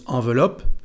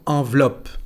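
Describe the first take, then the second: First: The middle E is pronounced as a vowel. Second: The middle E is silent. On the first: The speaker calls it wrong. "no decimos enveloppe" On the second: The speaker calls it right. "la E aquí no se pronuncia"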